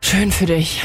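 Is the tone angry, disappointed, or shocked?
disappointed. It sounds disappointed, ending in a sigh.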